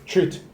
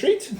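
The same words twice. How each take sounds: First: The pitch falls at the end. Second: The pitch rises at the end. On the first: It is like talking to a dog. "It's like how you would treat your dog" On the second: It is a polite offer. "instead of saying treat"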